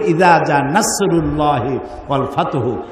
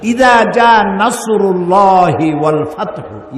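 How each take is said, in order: First: নাসরুল্লাহি with a light, plain s; untrained reading, thin s in নাসরুল্লাহি; mispronounced sad. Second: নাসরুল্লাহি with a heavy sad, slow recitation; measured recitation, emphatic s in নাসরুল্লাহি; correct Arabic sad. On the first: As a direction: read নাসরুল্লাহি casually, s instead of sad. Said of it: "সদের উচ্চারণ জানেন না". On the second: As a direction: draw out ইদা জা নাসরুল্লাহি with a full, emphatic s. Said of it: "সদের উচ্চারণ আলাদা". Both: Shown as a demonstration.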